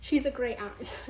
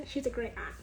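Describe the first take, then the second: First: Said in the usual way. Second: Laughing. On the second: Real, not acted. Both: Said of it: "She's a great aunt (said twice)".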